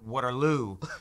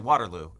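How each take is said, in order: First: Waterloo is said the Canadian way. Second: Waterloo is said the American way. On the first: "I still have to like consciously go Waterloo" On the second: "we would say Waterloo in the United States"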